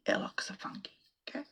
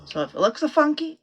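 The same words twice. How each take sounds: First: Hushed repeat of the warning; whispered aside. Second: Said in the usual way. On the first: Shown as a demonstration. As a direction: whisper it to the viewer.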